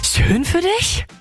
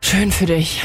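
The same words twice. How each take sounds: First: It sounds shocked, with exaggerated surprise. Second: It sounds disappointed, ending in a sigh.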